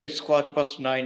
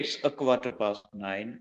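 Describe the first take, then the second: First: The word 'a' before 'quarter' is dropped. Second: The word 'a' before 'quarter' is clearly said. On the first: This is casual everyday speech. The speaker calls it wrong. "બોલચાલમાં અ generally ખવાઈ જતો હોય છે" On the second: This is grammatically correct English. The speaker calls it right. "Correct ઇંગ્લિશમાં આપણે અ લેવો જરૂરી છે"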